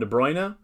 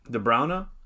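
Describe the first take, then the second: First: The name is said with an English pronunciation. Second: The name is said with a Flemish pronunciation. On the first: The speaker calls it wrong. "a lot of English announcers call him De Bruyne" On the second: The speaker calls it right. "he says it's De Bruyne, De Bruyne, De Bruyne, something like that"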